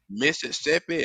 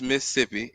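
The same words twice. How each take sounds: First: The word is said with all its syllables. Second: The word is said with one syllable dropped. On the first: The speaker is from out of town. "Y'all be saying" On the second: The speaker is from there.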